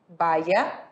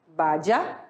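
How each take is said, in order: First: The y is pronounced like an i sound. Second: The y is pronounced like a j sound.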